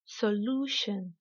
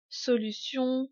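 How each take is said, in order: First: "solution" in English, LOO held long; slow teacher's "solution", weight on LOO; exaggerated English stress. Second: Said in the usual way. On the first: Shown as a demonstration. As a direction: stretch LOO slowly in "solution", so-LOO-shun. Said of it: "je vais délibérément exagérer". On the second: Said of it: "uniquement prononcés en français".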